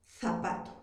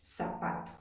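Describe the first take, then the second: First: ZAPATO as "thapato", lower and softer; Castilian Z. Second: ZAPATO with an S, "sapato", very soft; Peruvian seseo. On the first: Teacher repeats how a Spaniard says it, Castilian th. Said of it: "un español pronuncia". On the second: Teacher answering how a Peruvian says it, seseo with S. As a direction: start ZAPATO on a soft hissed S. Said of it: "¿Y un peruano cómo pronuncia?". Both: Shown as a demonstration.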